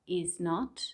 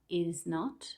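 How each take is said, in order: The two takes are said the same way.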